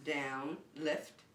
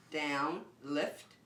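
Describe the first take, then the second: No difference in how they are said.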